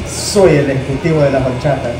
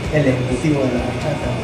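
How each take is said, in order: First: It is said louder and more forcefully. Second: It is said at a normal, softer volume.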